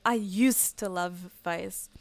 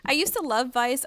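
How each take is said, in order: First: Slow, drawn-out "I used to love Vice."; a lightly mocking slow "I used to love Vice."; mocking people. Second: Said in the usual way. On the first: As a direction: mimic the nostalgic fans with a slow drag. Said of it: "I meet so many people that keep saying just". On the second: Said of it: "keep saying just".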